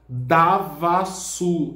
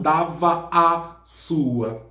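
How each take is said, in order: First: The 'a' vowels at the word boundary merge into one. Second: Each 'a' vowel at the word boundary is pronounced. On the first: The speaker calls it right. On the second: The speaker calls it wrong. "e não dava a sua"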